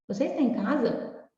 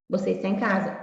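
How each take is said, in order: First: It is said with question intonation. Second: It is said with statement intonation.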